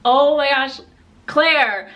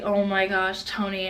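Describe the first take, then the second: First: Loud, higher exasperated outburst; exasperated exclamation. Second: Subdued, grave retold quote; serious. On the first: Retold or imitated. Answering boyfriend's mom, loud exasperation. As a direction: re-enact losing patience, loudly. Acts out her exasperated reply. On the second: Boyfriend's mom about to reveal something, serious. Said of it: "she's still serious".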